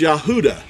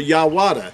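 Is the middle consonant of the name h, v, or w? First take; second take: h; w. First: The middle consonant is an H sound. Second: The middle consonant is a W sound. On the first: The speaker calls it right. "It's Yahuda. That's how Yehuda was pronounced" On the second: The speaker calls it wrong. "or Yawada"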